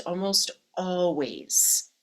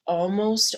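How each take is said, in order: First: "almost always" said slowly, stretching "almost"; slow down and lean on "almost"; drawn-out almost always. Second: "almost" punched out louder; emphatic almost. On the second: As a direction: hit "almost" hard, then stop. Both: Real, not acted.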